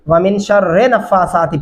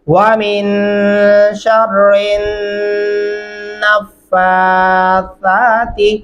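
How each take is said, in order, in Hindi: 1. 'sharri' के बाद बिना जुड़ी नाक वाली n की आवाज़ नहीं होती। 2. 'sharri' नाक वाली n की आवाज़ में जुड़ जाता है। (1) "ये दोनों तरीके गलत हैं।" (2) "रा को उठा के हमने नून के साथ मिलाना है... गुन्ना भी आपने करना है"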